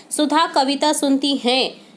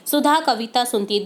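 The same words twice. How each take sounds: First: हैं said nasal, with the bindi sound at the end; slow reading, ending on a nasal हैं; wrong nasal हैं. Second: है said plain, with no nasal sound; corrected है. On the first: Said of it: "हैं के ऊपर बिंदी नहीं आएगी". (गलत रूप, हैं को नाक से बोलें) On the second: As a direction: end on a clean, non-nasal है. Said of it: "है के ऊपर से बिंदी को हटा देंगे". (सही रूप, है बिना बिंदी के साफ़ बोलें) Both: Shown as a demonstration.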